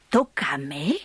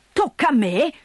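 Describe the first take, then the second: First: Low, quiet disbelieving question; first low grumbled echo; low incredulous mutter. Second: Indignant repeat. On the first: Grandfather repeats, disbelief. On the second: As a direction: throw it back at her, offended. Grandfather repeats, rising irritation. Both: Acted.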